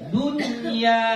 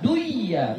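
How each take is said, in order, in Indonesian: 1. Bunyi n-nya jelas dan menyambung ke ya. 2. Bunyi n-nya hilang dan menyatu ke dalam ya. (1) "jelaskan dunya" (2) "jangan dibaca duiya ... gak boleh"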